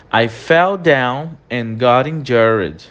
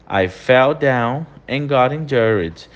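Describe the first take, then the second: No difference in how they are said.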